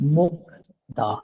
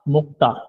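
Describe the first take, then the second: First: The consonant after k is a soft d. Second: The consonant after k is a tense t. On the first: The speaker calls it wrong. "मुक्दा गलत साउंड है" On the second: The speaker calls it right. "दुरुस्त साउंड मुक्ता"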